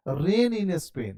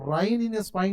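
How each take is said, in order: First: Very drawn-out "rain in Spain" with ay vowels; correct rain in Spain. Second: Slow "rain in Spain" misread as rine in spine; wrong rine in spine. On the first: Teacher gives correct reading, drawn-out "rain in Spain" with ay. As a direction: stretch the long a in "rain" and "Spain". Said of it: "तो rain in Spain नहीं". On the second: Teacher rejects wrong reading, "rain in Spain" as rine in spine. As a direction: put long i in both "rain" and "Spain". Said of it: "नहीं". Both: Shown as a demonstration.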